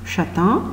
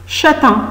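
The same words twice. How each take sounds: First: Soft repeat. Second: "Châtain" said higher, clear final "-tain"; model word, higher. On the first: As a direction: echo "Châtain" gently for the children. ("Châtain" répété doucement) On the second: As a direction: announce "Châtain" to the class. ("Châtain" dit plus haut, bien articulé) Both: Shown as a demonstration. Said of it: "c'est une couleur".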